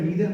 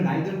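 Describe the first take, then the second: First: The first vowel sounds like 'ee', American style. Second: The first vowel sounds like 'eye', British style. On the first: "American accent में नीदर होता है" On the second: "British accent में नाइदर होता है"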